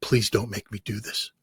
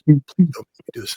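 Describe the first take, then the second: First: Soft, pleading mock whisper; the translator pleads with him at the microphone, in a mock whisper. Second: Said in the usual way. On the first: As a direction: beg him quietly, half-voiced. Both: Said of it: "She's just whispering to me".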